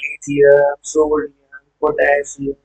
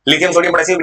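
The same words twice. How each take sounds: First: The names are said slowly and calmly. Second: The names are rattled off very quickly. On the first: "अभी आराम से सुनाना" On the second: "तुम मेरे से speed से बोलोगे, मेरे स्पीड का।"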